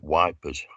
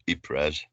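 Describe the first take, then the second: First: The name sounds like 'wipers'. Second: The name sounds like 'eeper'. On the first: This is how the soldiers called the town. "He was at Wipers" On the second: This is the standard name of the town. "he wasn't at Yp- Ypres"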